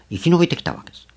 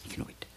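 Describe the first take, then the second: First: 生き延びて raised high on 延; 力強く強調して; emphatic. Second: 生き延びて breathed as a whisper; ささやき声で繰り返す; whispered echo. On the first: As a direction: stress 生き延びて firmly, pitched up. Sermon point, then whispered echo. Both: Acted.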